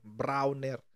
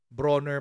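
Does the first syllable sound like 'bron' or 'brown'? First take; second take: brown; bron. First: The first syllable sounds like 'brown'. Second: The first syllable sounds like 'bron'. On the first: The speaker calls it wrong. "Lagi kong lagi kong sinasabi Browner eh" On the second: The speaker calls it right. "Bronner pala ang pronunciation"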